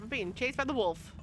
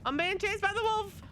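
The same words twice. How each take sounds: First: Said in the usual way. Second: High, loud panicked cry; being chased. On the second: Real, not acted. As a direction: yelp it in rising panic. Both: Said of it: "repeats line louder".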